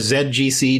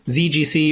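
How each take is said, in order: First: The first letter is pronounced 'zed'. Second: The first letter is pronounced 'zee'. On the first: "as an American, I hardly ever say Z, so I say Z G C" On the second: "depending on what you think sounds cooler"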